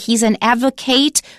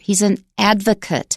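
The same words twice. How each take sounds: First: The word ends with an 'ate' sound. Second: The word ends with an 'ut' sound. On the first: The speaker calls it wrong. "We don't say" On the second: The speaker calls it right. "If it's a noun, we pronounce A T E as ut"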